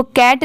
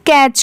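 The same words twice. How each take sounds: First: "कैट" ending in a hard t, like "cat"; wrong pronunciation. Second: "कैच" ending in a ch sound, silent t; correct pronunciation. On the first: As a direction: close "कैट" on a t stop. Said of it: "इसको कैट नहीं पढ़ेंगे". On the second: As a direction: finish "कैच" on ch, as in "catch". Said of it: "इसकी pronunciation यहाँ पर कैच की". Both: Shown as a demonstration.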